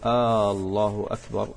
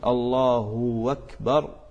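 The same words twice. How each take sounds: First: The opening vowel is stretched like a question particle. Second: An extra w sound follows the h sound. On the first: "لأن الهمزة ها هنا تكون همزة استفهام" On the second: "إشباع الضمة في هاء لفظ الجلالة حتى كأنما يتولد من الضمة واوا"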